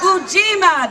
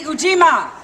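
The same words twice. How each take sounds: First: Ujima called higher and louder, a pumped-up lead. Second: Ujima called out loud as a cue for the crowd; called out word. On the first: After a weak answer, a higher, louder call of Ujima. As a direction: lift the whole crowd with a higher, louder Ujima. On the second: Leading the crowd, calling out Ujima. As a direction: lead the audience in calling out Ujima. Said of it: "okay, ready?". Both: Shown as a demonstration.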